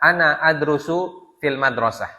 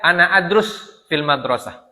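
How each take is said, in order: First: The verb ends with a final u vowel. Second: The verb ends without a final vowel. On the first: The speaker calls it right. "Bacanya dengan dengan dhammah" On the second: The speaker calls it wrong. "Tidak boleh baca"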